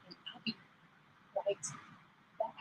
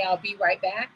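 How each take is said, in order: First: Trails off quieter and farther each word; fading away as if walking off. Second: Said in the usual way. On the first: Shown as a demonstration. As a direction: say it while leaving the mic. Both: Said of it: "And when I say right back".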